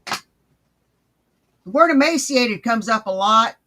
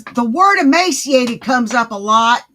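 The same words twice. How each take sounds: First: The word emaciated drawn out, each word spaced slowly; slow, deliberate repeat; slow emphatic repeat. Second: The word emaciated said loud and pointed; loud, pointed remark; loud pointed statement. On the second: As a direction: call out the word emaciated loudly. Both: Shown as a demonstration. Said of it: "repeats the same line slower".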